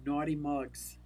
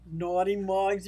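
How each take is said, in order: First: Said in the usual way. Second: Mugs said louder, stressed and drawn out; louder, teasing naughty mugs. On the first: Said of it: "that just sounds creepy". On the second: Shown as a demonstration. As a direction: lean hard on the word mugs, louder. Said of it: "No, that sounds creepy".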